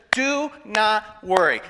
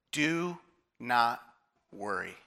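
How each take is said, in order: First: "Do not worry" slow and firm, without pauses; emphatic command. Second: "Do... not... worry", low and soft, paused between words; word-by-word pause. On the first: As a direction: stretch "Do not worry" in full voice. Repeats quote while building up. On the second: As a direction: let each word of "Do not worry" land separately, quietly. Quotes Jesus word by word. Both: Retold or imitated.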